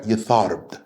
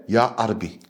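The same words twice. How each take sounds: First: Yatharb with a soft th and trailing b; our dialect. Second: Ya Arabi with an Arabic lilt, Ya A-ra-bi; Arabic dialect. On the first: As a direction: say Yatharb the local way, Ya-tharb. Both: Shown as a demonstration. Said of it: "If I was to say it with the Arabic dialect".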